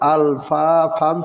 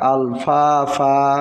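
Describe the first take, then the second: First: The word ends with an n sound. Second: The word ends with a lengthened vowel. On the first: The reader goes on without stopping. "আল ফা ফান ছিল" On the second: The reader stops on this word. "যেহেতু অক্ফ হয়েছে, এখন হবে আল ফা ফা"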